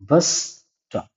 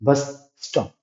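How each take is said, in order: First: The words run together, sharing a single s sound. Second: Both words are said separately, each with its own s. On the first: The speaker calls it right. "एक ही एस का इस्तेमाल जैसे हमने बोलने में किया... यही बोलते हैं" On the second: The speaker calls it wrong. "इसको अलग अलग नहीं पढ़ते मेरे दोस्त। बस स्टॉप ऐसे नहीं बोलते"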